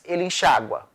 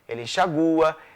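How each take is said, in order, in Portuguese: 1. O acento tônico recai sobre a vogal a. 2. O acento tônico recai sobre a vogal u. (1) "pronunciados com A ou I tônicos" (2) "pronunciadas com U tônico"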